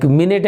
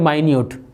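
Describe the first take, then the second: First: Minute said "MIN-it", stress on the first syllable; MIN-it pronunciation. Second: Minute said "my-NYOOT", with a long i; my-NEWT pronunciation. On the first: Teacher shows students a homograph, minute said as "MIN-it". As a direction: say minute like the unit of time. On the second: Teacher shows students a homograph, minute said as "my-NYOOT". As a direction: say minute like the word for tiny. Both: Shown as a demonstration. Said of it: "but different pronunciation, different meanings".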